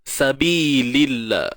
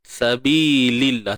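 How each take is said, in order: No difference in how they are said.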